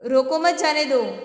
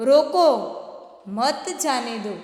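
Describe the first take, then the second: First: It is said without any pause inside. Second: There is a pause after the first word. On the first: The meaning is unclear. "समझ में नहीं आता है कि क्या बोल रहा है।" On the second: Stop them, do not let them go. "जाने मत देना।"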